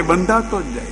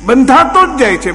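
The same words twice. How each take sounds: First: બંધાતો જ જાય dropped softer, falling away; fading echo. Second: બંધાતો જ જાય છે called out higher and louder; emphatic. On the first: Preacher echoes softly to listeners that the soul keeps getting bound. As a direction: let બંધાતો જ જાય fade as a quiet echo. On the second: Preacher stresses to listeners that the soul keeps getting bound. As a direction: hit બંધાતો hard, voice raised. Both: Acted.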